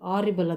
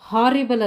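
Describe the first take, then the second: First: The word begins with a vowel sound. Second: The word begins with an h sound. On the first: The speaker calls it right. "ಎಲ್ಲಿ ಕೂಡ ಹೆಚ್ಚು silent ಆಗುತ್ತೆ" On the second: The speaker calls it wrong. "ಹಾರಿಬಲ್ ಅಲ್ಲದು"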